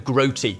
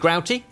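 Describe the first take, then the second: First: The first vowel sounds like 'oat'. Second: The first vowel sounds like 'out'. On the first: "would make more sense given the groats, the oats" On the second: "it seems to be both ways"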